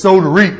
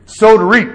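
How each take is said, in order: First: "Sow" stressed, rising; sow to reap. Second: "Sow" called out higher, louder; louder repeat. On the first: Preacher quotes scripture, "Sow" rising. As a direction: lift "Sow" lightly. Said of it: "scripture quote said twice". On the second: Preacher repeats scripture louder, "Sow" stressed. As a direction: ring out "Sow to reap". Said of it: "repeated louder". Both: Shown as a demonstration.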